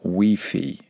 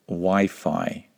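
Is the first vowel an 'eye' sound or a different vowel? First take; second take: different; eye. First: The first vowel is a different vowel. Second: The first vowel is an 'eye' sound. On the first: The speaker calls it wrong. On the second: The speaker calls it right. "Just like we say"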